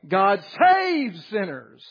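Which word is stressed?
saves. The word saves is stressed.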